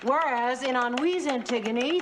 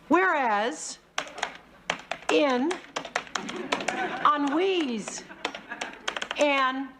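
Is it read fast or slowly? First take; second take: fast; slowly. First: It is read very fast. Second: It is read very slowly.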